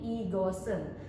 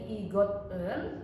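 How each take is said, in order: First: The consonant links forward as an s sound. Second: The final t is kept separate from en. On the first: The speaker calls it right. "namun menjadi igosen" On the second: The speaker calls it wrong. "dibacanya bukan menjadi igot en"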